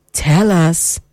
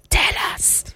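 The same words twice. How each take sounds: First: Said in the usual way. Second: "Tell us." breathed in a soft whisper. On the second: Shown as a demonstration. Host coaxing listener's secret out in a whisper.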